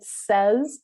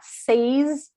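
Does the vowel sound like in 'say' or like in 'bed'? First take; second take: like bed; like say. First: The vowel sounds like the vowel in 'bed'. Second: The vowel sounds like the vowel in 'say'. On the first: The speaker calls it right. "it says, which is just slightly different" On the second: The speaker calls it wrong. "it's not says"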